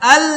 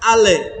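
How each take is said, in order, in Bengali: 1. L-টি কোনো স্বরধ্বনি যোগ না করে ধরে রাখা হয়। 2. L-টি একটি যোগ করা স্বরধ্বনি দিয়ে ছেড়ে দেওয়া হয়। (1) "ধরে রাখতে হবে, জিহ্বাটা লাগায় রাখতে হবে" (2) "আরেকটা হচ্ছে আলে, এটা হবে না"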